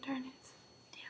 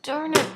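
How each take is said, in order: First: Annoyed whisper; whispered frustration. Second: Said in the usual way. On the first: Real, not acted. Hiccup returns, whispered frustration.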